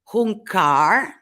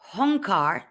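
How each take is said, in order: First: The first vowel sounds like 'oo'. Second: The first vowel sounds like 'oh'. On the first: A grunt of assent or a menacing sound. "The first one on top is Hunkar" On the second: A challenge and a shout. "The other pronunciation, which is more Honkar"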